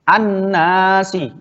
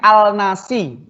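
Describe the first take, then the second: First: The L sound merges into a doubled N sound. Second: The L sound of the article is clearly pronounced. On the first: The speaker calls it right. "Pasti bacanya adalah an-nasi" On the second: The speaker calls it wrong. "nggak mungkin bacanya al-nasi"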